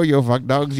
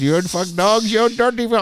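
First: Said in the usual way. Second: Mock taunt, louder on each word. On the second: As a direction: rub it in, pushing louder. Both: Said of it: "I go".

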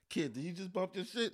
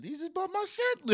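First: Hushed, half-muttered question; quiet disbelief. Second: Much higher, incredulous squeal; outraged disbelief. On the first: To the driver who bumped his car, hushed. Retold car bump, first calm take. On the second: To the driver who bumped his car, high and incredulous. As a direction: let the pitch jump right up in outrage. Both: Retold or imitated.

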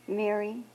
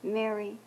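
First: Soft, tender name; Jesus quietly calls Mary by name. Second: Quiet, loving call of her name; Jesus lovingly speaks Mary's name. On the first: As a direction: say her name quietly, with love. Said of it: "very quietly, Jesus said to her". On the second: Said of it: "all of this love is in his voice". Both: Acted.

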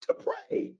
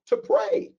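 First: Whisper. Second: "To pray." lifted high; emphatic answer. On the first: Preacher echoing his answer to the congregation in a whisper. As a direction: whisper "To pray." right after calling it out. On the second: Preacher calling out the answer to the congregation, emphatic. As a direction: ring out "To pray." to the room. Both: Real, not acted.

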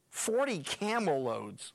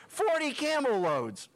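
First: Slow, even reading of the number. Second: Higher and louder, stress on Forty; emphatic repeat. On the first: Preacher reading the gift list, slow and plain. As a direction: let the figure land slowly. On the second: Preacher marvelling at the huge gift, Forty stressed loud. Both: Shown as a demonstration.

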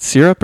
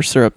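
First: "syrup" pronounced SEER-up. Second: "syrup" pronounced SUR-up. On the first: Breakfast judge asks which way won, "syrup" as SEER-up. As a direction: say "syrup" with a SEER first syllable. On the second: Breakfast judge asks which way won, "syrup" as SUR-up. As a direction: say "syrup" with a SUR first syllable. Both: Shown as a demonstration. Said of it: "was it syrup or syrup".

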